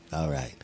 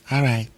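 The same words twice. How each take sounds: First: Much lower, softer second voice; low, quiet reply to himself; different voice. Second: Said in the usual way. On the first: Acted. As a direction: agree in a deep, hushed alter-ego voice. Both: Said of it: "using a different voice".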